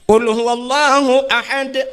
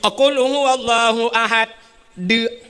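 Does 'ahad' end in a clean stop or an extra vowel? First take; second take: clean stop; extra vowel. First: The word ahad ends with a clean stop. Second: The word ahad ends with an added vowel. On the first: The speaker calls it right. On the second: The speaker calls it wrong. "tapi nyobek salah"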